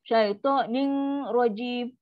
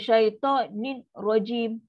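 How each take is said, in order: First: The n is pronounced with a nasal hum. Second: The n is pronounced clearly and separately. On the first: "salah dia, dia berdengung pula" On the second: "itu jadi izhar"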